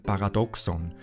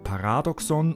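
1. Die Betonung liegt nicht auf der zweiten Silbe. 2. Die Betonung liegt auf der zweiten Silbe. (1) "und nicht einem Paradoxon" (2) "daher liegt die Betonung auf dem zweiten A"

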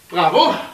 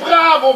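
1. Es wird mit sarkastischer, empörter Missbilligung gesagt. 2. Es wird als begeistertes, zustimmendes Jubeln gesagt. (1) "Ich habe gemeint, Bravo" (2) "nicht so Bravo, Bravo gerufen wie die anderen"

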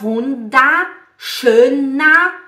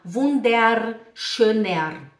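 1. O -er final soa como a vogal 'ah'. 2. O -er final tem um R claramente pronunciado. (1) "O ER no alemão a gente fala com o som de A" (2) "aqui na Suíça as pessoas puxam o R por causa do sotaque suíço"

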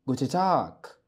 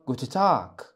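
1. حرف النون لا يُنطق، والحرف g يُنطق كـ k. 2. حرف النون لا يُنطق، والحرف g يُنطق كـ k.

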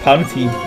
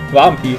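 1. Der Name beginnt mit einem P-Laut. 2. Der Name beginnt mit einem W-Laut. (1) "ich sag Panfi" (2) "Früher habe ich immer Wampi gesagt"

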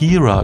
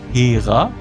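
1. Der Name wird auf Englisch ausgesprochen. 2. Der Name wird auf Deutsch ausgesprochen. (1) "irgendeine Serie hat dann plötzlich Hera gesagt" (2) "Und da gab es halt Hera"

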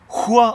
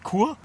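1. Das Wort beginnt mit einem rauen Ch-Laut. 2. Das Wort beginnt mit einem harten K-Laut. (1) "wenn man es Chur ausspricht, dann schreibt es mit CH" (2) "Chur schreibt sie mit K, okay? Wenn man es so ausspricht"

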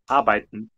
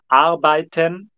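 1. A vogal da sílaba final é engolida. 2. A vogal da sílaba final é claramente pronunciada. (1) "De novo com o E engolido" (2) "na televisão vamos falar arbeiten"

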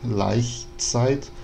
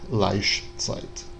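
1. O ch é um chiado palatal suave. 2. O ch é um som chiante, tipo sh. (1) "como a gente pronuncia hoje em dia" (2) "que ele vai falar Laichzeit"

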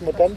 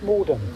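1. Die Betonung liegt auf der zweiten Silbe. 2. Die Betonung liegt auf der ersten Silbe.

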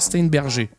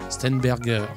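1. Le nom se prononce à la française. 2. Le nom se prononce à l'allemande. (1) "j'arrive jamais à le dire" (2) "en allemand"

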